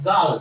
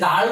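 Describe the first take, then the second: First: "গার্ল" with a silent R; British pronunciation. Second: "গার্ল" with the R sounded; "গার্ল" as said locally, R before L; everyday local pronunciation. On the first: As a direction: say "গার্ল" as "gaal". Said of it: "তারা বলবে কি গার্ল". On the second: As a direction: keep the R in "গার্ল". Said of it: "আমরা এটাকে গার্ল বলি". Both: Shown as a demonstration.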